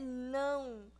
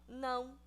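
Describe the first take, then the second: First: The word is said with strong, forceful emphasis. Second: The word is said plainly without extra force. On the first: It means no way, absolutely not. "Que é com ênfase" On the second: It is a simple refusal. "não é só não"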